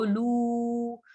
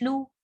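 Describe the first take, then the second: First: लू held long on an even tone; drawn-out vowel. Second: लू said briefly, not held; short vowel. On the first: Teacher explains stretching before waw, drawn-out vowel. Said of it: "लू को हम इसलिए खींच रहे हैं". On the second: Teacher contrasts the spelling without waw, short vowel. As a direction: clip the oo of लू short. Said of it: "फिर नहीं खींचना था". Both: Shown as a demonstration.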